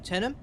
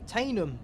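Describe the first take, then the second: First: The first vowel sounds like 'eh'. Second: The first vowel sounds like 'ay'. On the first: "We'll be passing through Tenham" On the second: "Or some people may want to say Tainham"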